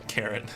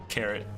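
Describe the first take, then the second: The two takes are said the same way.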